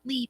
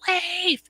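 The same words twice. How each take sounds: First: The vowel sounds like 'ee', as in leaf. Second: The vowel sounds like 'ay', as in safe. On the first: The speaker calls it wrong. "It's not Leif" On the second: The speaker calls it right. "it's Leif. L A Y F"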